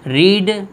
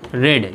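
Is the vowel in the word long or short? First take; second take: long; short. First: The word has a long 'ee' vowel. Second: The word has a short 'e' vowel. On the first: It is the present form of the verb. "तो ये आपका first form हो गया" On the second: It is the past participle of the verb. "ये past participle है"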